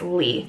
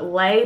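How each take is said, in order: First: The vowel sounds like 'ee' in 'see'. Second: The vowel sounds like 'ay' in 'day'. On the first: The speaker calls it right. "but it's Lee" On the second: The speaker calls it wrong. "I guess I could see why people would put Lay"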